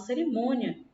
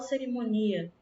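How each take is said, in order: First: The i glides quickly into the a. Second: The i is a full, separate vowel. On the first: The speaker calls it right. "a gente fala cerimônia ... O i, ele é falado rápido" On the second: The speaker calls it wrong. "a gente não fala cerimônia"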